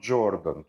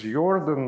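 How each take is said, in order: First: The name begins with a J sound. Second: The name begins with a Y sound. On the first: This is the American or British pronunciation of the name. The speaker calls it wrong. "not Jordan. Jordan would be American or British pronunciation" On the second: This is the German pronunciation of the name. The speaker calls it right. "his name is Jordan, ... he was German. So J in German is Y"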